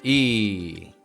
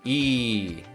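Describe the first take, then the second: First: The vowel is tense and held long. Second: The same.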